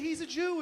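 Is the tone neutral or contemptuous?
neutral. It is said in a plain, neutral tone.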